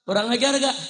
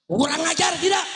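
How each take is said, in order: First: Said in the usual way. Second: High, rising call to the crowd; high pulpit cry; rallying challenge. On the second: Real, not acted. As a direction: raise it into an indignant crowd question. Repeats higher to rouse crowd.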